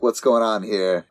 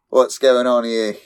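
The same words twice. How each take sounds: First: It is said in a plain everyday voice. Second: It is said in a put-on British accent.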